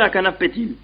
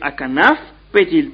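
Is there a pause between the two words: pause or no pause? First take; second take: no pause; pause. First: The two words run together without a pause. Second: There is a pause between the two words. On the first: The words merge, changing the sense. The speaker calls it wrong. "pas dire" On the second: The words are read as two separate units. The speaker calls it right. "nous devons lire"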